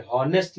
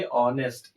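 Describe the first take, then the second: First: हॉनेस्ट with a clearly sounded h at the start; wrong pronunciation with h. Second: ऑनेस्ट starting straight on the vowel, no h; silent h. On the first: Teacher showing students the wrong way, हॉनेस्ट with h. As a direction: say हॉनेस्ट with the h breathed in front. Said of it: "हॉनेस्ट नहीं पढ़ेंगे". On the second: Teacher showing students the right way, ऑनेस्ट without h. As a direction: say ऑनेस्ट with the h dropped. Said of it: "इसको क्या पढ़ेंगे". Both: Shown as a demonstration.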